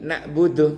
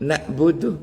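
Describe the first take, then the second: No difference in how they are said.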